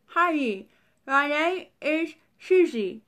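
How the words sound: It is said as if mouth is full.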